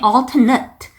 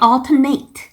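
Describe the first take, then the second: First: It is said with the adjective pronunciation. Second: It is said with the verb pronunciation. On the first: The word is used as an adjective. "형용사로 쓰일 때에는 발음이 alternate" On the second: The word is used as a verb. "동사일 때에는 발음이 alternate"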